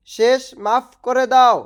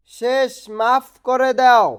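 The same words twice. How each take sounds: The two takes are said the same way.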